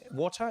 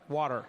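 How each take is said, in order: First: It is said in the speaker's own English accent. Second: It is said in an American accent.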